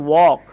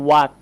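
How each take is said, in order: First: ওয়াক with a rounded AW vowel, "wawk"; correct pronunciation. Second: ওয়াক with an AH vowel, "wahk"; wrong pronunciation. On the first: Teacher corrects the dictionary version, correct pronunciation. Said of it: "এটা সঠিক উচ্চারণ হচ্ছে". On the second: Teacher shows the misspelt dictionary version, wrong pronunciation. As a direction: mispronounce ওয়াক as "wahk", no rounding. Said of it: "কিন্তু না". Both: Shown as a demonstration.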